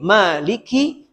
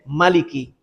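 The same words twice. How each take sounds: First: The vowel after the m is long. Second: The vowel after the m is short. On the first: "dibaca dengan panjang mim" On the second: "membacanya dengan pendek"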